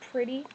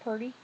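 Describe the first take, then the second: First: The first syllable is 'prih' with an r before the vowel. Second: The first syllable is 'pur' with an r-colored vowel. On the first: The speaker calls it right. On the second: The speaker calls it wrong.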